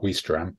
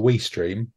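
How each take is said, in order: First: The second syllable sounds like 'stram'. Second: The second syllable sounds like 'stream'. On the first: The speaker calls it wrong. "not Weestram" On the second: The speaker calls it right. "which I believe is how it's pronounced"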